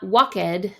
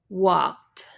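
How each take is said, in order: First: The ending is said as an extra syllable. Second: The ending is a faint sound, no extra syllable. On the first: The speaker calls it wrong. "it's not walked, no" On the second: The speaker calls it right. "You barely hear it, that little d at the end"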